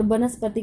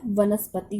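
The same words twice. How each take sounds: First: वनस्पति said with a b, as banaspati; the wrong way: वनस्पति starting with b; wrong b sound. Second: वनस्पति said with a v, as vanaspati; the right way: वनस्पति starting with v; correct v sound. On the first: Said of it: "वनस्पति की जगह क्या होता है". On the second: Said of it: "वनस्पति होता है". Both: Shown as a demonstration.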